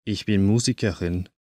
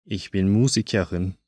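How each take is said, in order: Both takes have the same delivery.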